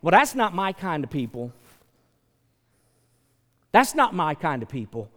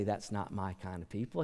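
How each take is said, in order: First: Dismissive, mock snob; a touch of snobbery; snobby dismissal. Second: Softer, plain quote of what God never said; much softer, without the sneer; quiet denial. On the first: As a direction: turn up your nose at them. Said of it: "but we say". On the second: Retold or imitated. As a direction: say it quietly, no scorn. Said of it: "God didn't say".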